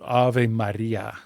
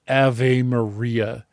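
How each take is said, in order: First: The R in Maria is rolled. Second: The R in Maria is plain, not rolled. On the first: This is the Latin way the singer says it. "the actual pronunciation of the words in Latin and even rolling her R's" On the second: This is how the singer does not say it. "She's not saying Ave Maria"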